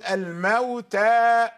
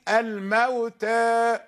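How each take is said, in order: First: The final vowel is a fully open a. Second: The final vowel leans slightly toward e. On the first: "عندما نقرأ بالفتح نفتح الفم بصوت الحرف" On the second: "فإذا قرأنا بالتقليل الموتى قل فتح الفم"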